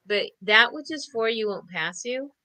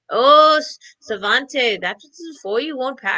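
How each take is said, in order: First: Said in the usual way. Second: Put-on a barely-there Irish accent, given up on; half-hearted try at an Irish grandmother saying; abandoned attempt at an Irish accent; failed Irish accent. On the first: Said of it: "I'm not even gonna try". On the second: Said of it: "I can't even do his Irish accent".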